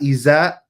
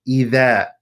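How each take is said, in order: First: The middle consonant is a 'z' sound. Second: The middle consonant is a soft 'th' sound. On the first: The speaker calls it wrong. "not iza" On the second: The speaker calls it right. "the tongue comes between the teeth"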